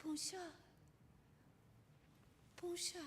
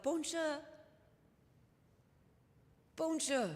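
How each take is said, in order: First: Put-on "Bonjour, bonjour" piped higher and softer like small girls; little girls calling back. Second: "Bonjour, bonjour" sung out higher with a French lilt; French soldiers greeting. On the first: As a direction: chirp "Bonjour" back like a shy child. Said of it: "And we would call back". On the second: Retold or imitated. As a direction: call a cheerful French "Bonjour" across the street. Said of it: "And they would call out".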